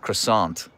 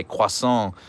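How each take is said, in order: First: Croissant said the plain English way, kruh-sahnt with a hard t. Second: Croissant said the French way, kwah-sahn with a nasal end. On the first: Streamer giving the English pronunciation, croissant said kruh-sahnt. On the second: Streamer mocking the French pronunciation, croissant said kwah-sahn. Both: Shown as a demonstration. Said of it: "criticizing Americans who say croissant and not".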